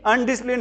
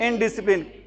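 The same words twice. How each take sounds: First: अनडिसिप्लिन said with an "an" at the start; teacher quoting the wrong word; wrong pronunciation. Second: इनडिसिप्लिन said with a clear "in" at the start; teacher giving the right word; correct pronunciation. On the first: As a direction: begin अनडिसिप्लिन with "an", as the mistake goes. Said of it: "अनडिसिप्लिन नहीं होता". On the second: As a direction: begin इनडिसिप्लिन with "in". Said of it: "क्या होता है?". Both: Shown as a demonstration.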